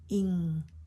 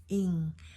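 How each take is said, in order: No difference in how they are said.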